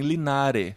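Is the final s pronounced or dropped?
dropped. The final s is dropped, southern Spain style.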